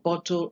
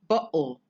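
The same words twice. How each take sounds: First: The middle t is pronounced as a clear t. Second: The middle t is replaced by a glottal stop. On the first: "for bottle" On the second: "substitute a glottal stop for the t"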